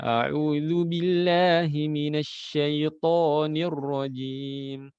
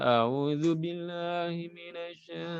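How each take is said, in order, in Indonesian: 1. Setiap huruf dilafalkan dengan jelas. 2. Ada beberapa huruf yang tidak jelas. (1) "Semua hurufnya jelas" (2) "Bukan ... ada yang huruf enggak jelas"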